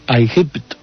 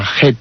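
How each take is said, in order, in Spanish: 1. Empieza con 'eye' y termina en 'ipt'. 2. Empieza con 'ah' y termina en 'et'. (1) "se puede pronunciar también precisamente como Aigipt" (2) "que la pronuncian como Ajet, pues es una pronunciación convencional de los egiptólogos"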